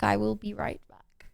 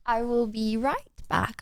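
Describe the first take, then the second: First: Slow, soft whispered repeat. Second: Said in the usual way. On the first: Shown as a demonstration. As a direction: whisper it as you leave.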